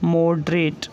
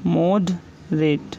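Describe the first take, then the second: First: Said in the usual way. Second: moderate drawn out very slowly, syllable by syllable; teacher slowly dictating moderate to students; slow dictation. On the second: Shown as a demonstration. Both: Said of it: "next word है हमारा".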